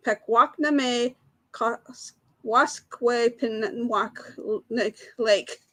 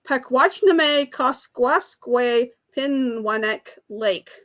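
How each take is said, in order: First: Very slow, broken-up "Pakwachname Koskwaskway Pinwanek"; halting pronunciation attempt. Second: Slow, steady sounding-out of "Pakwachname Koskwaskway Pinwanek"; careful long-word reading. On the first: Quiz host repeats the hard lake name for players, halting and very slow. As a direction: labour through each syllable with gaps between them. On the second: Quiz host reads the hard lake name to players, slow and careful. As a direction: read the long name slowly, syllable by syllable. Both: Real, not acted. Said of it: "I don't think I can pronounce it".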